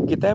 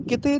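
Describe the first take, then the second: First: ਕਿਤੈ ending in open "ai". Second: ਕਿਤੇ ending in closed "e". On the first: Teacher correcting the reading, ਕਿਤੈ with open ai. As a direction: end ਕਿਤੈ on ai, not on e. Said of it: "ਕਿਤੇ ਦੀ ਬਜਾਏ ਕਿਤੈ ਪੜ੍ਹਨਾ". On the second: Teacher naming the reading to avoid, ਕਿਤੇ with closed e. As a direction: end ਕਿਤੇ on a plain narrow e. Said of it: "ਕਿਤੇ ਦੀ ਬਜਾਏ". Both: Shown as a demonstration.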